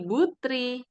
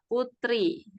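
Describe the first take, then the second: First: The name begins with a B sound. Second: The name begins with a P sound. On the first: This is the Arabized form. "jika diarabkan itu menjadi B" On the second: This is the Indonesian form. "huruf P di Indonesia"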